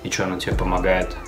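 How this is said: The question has a flat, statement-like tune. This is how most Russian speakers ask it. "Оно, блядь, точно так же звучит"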